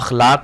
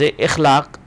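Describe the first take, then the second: First: The word begins with an 'a' vowel. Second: The word begins with an 'i' vowel. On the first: The speaker calls it right. "बल्कि लफ्ज़ अखलाक है" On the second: The speaker calls it wrong. "लफ्ज़ इखलाक नहीं है"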